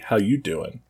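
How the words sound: It is said in Joey's flirty voice.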